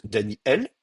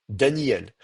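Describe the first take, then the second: First: "Daniel" split Dani-El by a catch; glottal stop. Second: "Daniel" in one run, Da-nyel, no break; lazy glide. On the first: Teacher contrasts two versions, glottal stop in "Daniel". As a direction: block the air, then open on el in "Daniel". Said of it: "je bloque le passage de l'air et j'ouvre". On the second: Teacher contrasts two versions, smooth quick "Daniel". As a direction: let i slide into el in "Daniel". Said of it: "je parle vite". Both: Shown as a demonstration.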